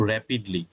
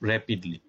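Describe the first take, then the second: The two takes are said the same way.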